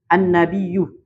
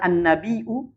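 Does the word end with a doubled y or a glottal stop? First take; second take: doubled y; glottal stop. First: The word ends with a doubled y sound. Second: The word ends with a glottal stop sound. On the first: "bitasdidil ya" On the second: "bila hamzah"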